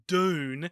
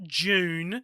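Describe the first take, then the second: First: The word begins with a plain hard D sound. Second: The word begins with a clear J sound. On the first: "it's not Dune" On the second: "It's not June"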